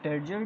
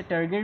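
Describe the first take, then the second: First: "टर्जर" with a j sound, as in jar; soft g variant. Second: "टर्गर" with a hard g, as in go; hard g variant. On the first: Teacher offering students either pronunciation, "टर्जर" with soft j. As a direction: say "टर्जर" with j in the middle, not hard g. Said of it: "टर्जर भी कहते हैं". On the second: Teacher showing students another pronunciation, "टर्गर" with hard g. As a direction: say "टर्गर" with g in the middle, not j. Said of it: "इसे टर्गर भी कहते हैं कुछ लोग". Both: Shown as a demonstration.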